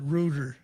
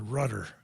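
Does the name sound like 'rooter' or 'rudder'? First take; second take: rooter; rudder. First: The first vowel is a long 'oo' sound. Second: The first vowel is a short 'uh' sound. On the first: This is how the owner says his own name. "he pronounces it Rooter" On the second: This is the speaker's own chosen way of saying it. "I'm going to pronounce it Rudder"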